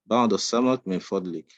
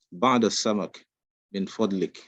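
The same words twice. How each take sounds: First: بعض السمك من فضلك run together quickly as one phrase; teacher says the whole line at natural speed; quick fluent بعض السمك من فضلك; fast, in one breath. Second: بعض السمك من فضلك split into two halves with a pause between; teacher models بعض السمك, then من فضلك; slow, phrase by phrase. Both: Shown as a demonstration.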